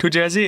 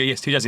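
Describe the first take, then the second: First: Put-on high rising Indian accent question; imitating an Indian shopkeeper, asking. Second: Said in the usual way. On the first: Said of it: "Indian accent". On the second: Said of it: "And we go".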